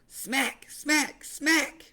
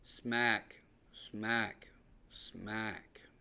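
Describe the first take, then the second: First: It is said in a lively, excited voice. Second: It is said in a flat, bored monotone. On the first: It conveys joy and excitement. The speaker calls it right. "the same joy and excitement as reading it like this" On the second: It gives no joy or excitement. The speaker calls it wrong. "a lame, boring, monotone voice"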